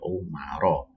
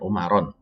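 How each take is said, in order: First: The word ends on a vowel without n. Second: The word ends with an added n sound. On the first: The speaker calls it right. "tapi Umaro" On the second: The speaker calls it wrong. "bukan bukan Umaron"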